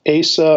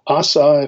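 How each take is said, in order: First: The name is said in its English form. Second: The name is said in its Hebrew form.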